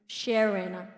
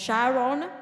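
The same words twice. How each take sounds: First: It is said with an American accent. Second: It is said with a Kenyan accent.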